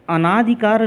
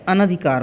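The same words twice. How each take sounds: First: "अनाधिकार" with a long aa after an, anaa-dhikaar; "अनाधिकार" as the wrong form, anaadhikaar; wrong long vowel. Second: "अनधिकार" with a short a, an-dhikaar; correct short vowel. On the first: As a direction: lengthen the second syllable of "अनाधिकार". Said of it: "अनाधिकार नहीं होता है". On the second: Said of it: "अनधिकार होता है". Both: Shown as a demonstration.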